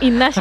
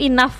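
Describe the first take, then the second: First: The word ends with an sh-like sound. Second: The word ends with an f sound. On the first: A French speaker pronounced it this way. The speaker calls it wrong. "pernah ngece tuh inash gitu kan" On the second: This is the word that was meant. The speaker calls it right. "Ternyata yang ngece itu enough"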